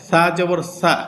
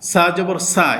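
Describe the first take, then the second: No difference in how they are said.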